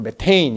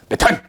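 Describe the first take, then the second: First: The second syllable has an 'ay' vowel. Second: The second syllable has a plain 'a' vowel. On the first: This is the current American-style pronunciation. "요즘에는 미국식 발음으로 메테인 이렇게 하는 건데" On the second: This is the older German-style pronunciation. "독일식 발음으로 메탄 이렇게 했는데"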